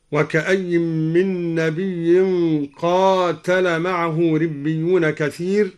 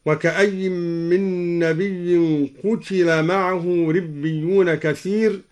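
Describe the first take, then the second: First: Said in the usual way. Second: قتل said "qutila", short u then i; slow recitation with قتل as "qutila", no long a; passive-verb reading. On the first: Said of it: "قرأ الدوري بضم القاف بدون ألف". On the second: Shown as a demonstration. Teacher shows al-Duri's reading of قتل as passive "qutila". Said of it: "بضم القاف بدون ألف وكسر التاء هكذا".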